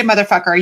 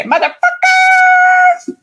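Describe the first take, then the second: First: Said in the usual way. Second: "motherfucker" squealed very high and stretched; high drawn-out squeal. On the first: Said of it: "you can't just say". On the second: Shown as a demonstration. Host showing how the phrase must be said, high drawn-out squeal. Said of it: "You gotta say".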